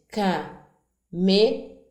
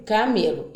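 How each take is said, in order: First: Camelo split into slow, separate syllables, ca-me-lo; syllables spaced out. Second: Said in the usual way. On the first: Shown as a demonstration. Teacher sounding out a word for a child, slowly syllabified. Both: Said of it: "Eu disse as sílabas pausadamente".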